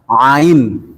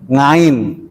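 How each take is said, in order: First: The word begins directly with a vowel. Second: The word begins with an ng sound. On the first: "tidak bisa bilang ain" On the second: "bisa bilangnya ngo, ngain"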